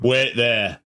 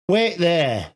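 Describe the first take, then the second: First: The voice is pitched deep and low. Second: The voice is pitched lighter, less deep. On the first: The speaker calls it wrong. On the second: The speaker calls it right.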